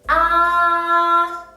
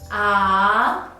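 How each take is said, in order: First: The syllable is said with the first tone. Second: The syllable is said with the second tone. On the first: "The first tone, read after me" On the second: "And the second tone"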